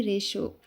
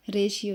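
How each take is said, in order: First: रेशो said as two syllables, re-sho, with no "i"; रेशो pronounced re-sho, the correct way; correct pronunciation. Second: रेशियो said with a separate "i" sound as three syllables, re-shi-yo; रेशियो pronounced re-shi-yo, the wrong way; wrong pronunciation. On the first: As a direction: give the right form: रेशो, re-sho. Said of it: "रेशियो नहीं". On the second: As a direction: demo the common mistake: रेशियो, re-shi-yo. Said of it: "Hindi medium वाले जानते होंगे कि जब इसको पढ़ते हैं तो रेशियो पढ़ देते हैं". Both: Shown as a demonstration.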